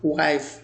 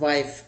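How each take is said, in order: First: "wife" with a rounded English w, lips pushed forward; correct w sound. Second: "wife" said as vife, top teeth on lower lip; wrong v sound. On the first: Teacher models the right w in wife. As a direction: say "wife" starting on a true w, not a v. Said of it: "The correct pronunciation आप उसमें डब्ल्यू के sound के produce करें". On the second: Teacher mimics the common v mistake in wife. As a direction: say "wife" with a v at the start. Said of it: "not wife". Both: Shown as a demonstration.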